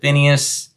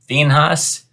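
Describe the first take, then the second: First: The name is said the familiar, everyday way. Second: The name is said in a more formal way. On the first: This is how people usually say it. "We pronounce it Phineas" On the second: This is the more correct form of the name. "the more proper pronunciation is Phinehas"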